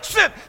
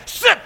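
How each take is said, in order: No difference in how they are said.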